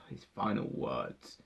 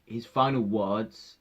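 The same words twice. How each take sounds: First: Softer lower sighing repeat; sighed, softer. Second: Said in the usual way. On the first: Real, not acted.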